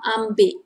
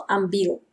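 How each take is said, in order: First: Ambil ending in a K, "ambik"; gesprochene Form mit K. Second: Ambil with its final L sounded; Schriftform mit L. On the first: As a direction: swap the final L of ambil for a K. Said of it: "that L we convert into K". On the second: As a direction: say ambil as written, ending on L. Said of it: "instead of ambil". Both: Shown as a demonstration.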